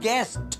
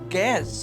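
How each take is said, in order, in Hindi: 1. इस शब्द का अंत एक स्पष्ट t ध्वनि से होता है। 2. इस शब्द के अंत में कोई t ध्वनि नहीं है। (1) "Guest with T, guest. And T is not silent" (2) "that is not gas"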